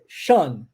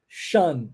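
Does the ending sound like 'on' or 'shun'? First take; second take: shun; shun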